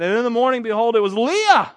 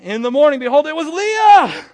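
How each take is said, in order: First: It is read flatly, without much expression. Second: It is read with lively, exclamatory expression.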